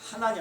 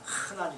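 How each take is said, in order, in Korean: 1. 첫 자음은 약하고 부드러운 h입니다. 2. 첫 자음은 강하고 거친 h입니다. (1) "하난이 아니라" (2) "이렇게 강한 발음을 해요"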